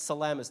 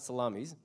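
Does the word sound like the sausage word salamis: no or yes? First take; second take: no; yes. First: It is said unlike the sausage word salamis. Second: It is said like the sausage word salamis. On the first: It names the ancient city. The speaker calls it right. "that's Salamis" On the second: It names sliced meat. The speaker calls it wrong. "not Salamis"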